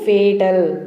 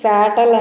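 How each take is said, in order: First: The first vowel sounds like the 'ay' in day. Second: The first vowel sounds like the 'a' in cat. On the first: The speaker calls it right. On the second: The speaker calls it wrong. "దీన్ని ఫ్యాటల్ అని పలకద్దు"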